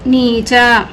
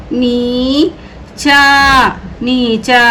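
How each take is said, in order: First: Said in the usual way. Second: Very slow, syllable by syllable; slow drawn-out reading. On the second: Shown as a demonstration. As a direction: stretch नीचा out slowly for learners. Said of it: "teacher stretches the word for pupils".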